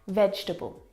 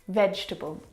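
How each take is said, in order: No difference in how they are said.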